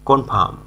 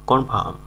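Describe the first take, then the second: Both takes have the same delivery.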